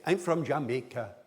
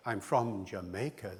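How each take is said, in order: First: Syllable-timed Jamaican English; Jamaican accent. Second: Said in the usual way. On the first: Shown as a demonstration. Lecturer showing how Jamaicans really say it, Jamaican accent. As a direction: say it Jamaican, every syllable evenly punched. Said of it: "They say". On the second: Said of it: "Somebody from Jamaica does not say".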